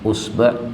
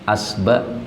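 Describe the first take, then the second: First: The word begins with a 'u' vowel. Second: The word begins with an 'a' vowel. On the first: "Atau ini di dhamma" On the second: "Atau ini di fathah"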